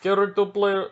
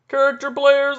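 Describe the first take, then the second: First: Put-on botched French accent turning Russian; louder, higher fake Russian accent; accidental Russian accent. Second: High, loud mock French accent; hammed-up French accent, much louder; attempted French accent. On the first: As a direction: attempt French and land in Russian. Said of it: "no, now he's Russian". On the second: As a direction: badly fake a French-accented manager. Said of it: "I can't do the French accent".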